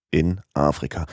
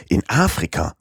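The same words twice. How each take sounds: First: Said in the usual way. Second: In Afrika? repeated as a doubting question, Afrika lifted in surprise; incredulous repeat. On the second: Acted. Passepartout echoes Fix in disbelief, surprised question. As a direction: echo In Afrika? as if you can't believe it. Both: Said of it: "wiederholte Passepartout".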